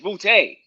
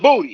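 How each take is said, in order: First: The name ends with an 'ay' sound. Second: The name ends with an 'ee' sound. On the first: The speaker calls it right. "It's Boutte" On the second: The speaker calls it wrong. "It's not Booty"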